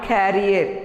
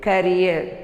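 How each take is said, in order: First: "carrier" with stress up front, KARR-i-er; "carrier" said like carry plus er; wrong pronunciation. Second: "career" as kuh-REE-uh; "career" with the final r silent; correct pronunciation. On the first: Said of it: "Not carrier". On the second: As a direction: say "career" leaning on the second syllable. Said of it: "It is career". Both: Shown as a demonstration.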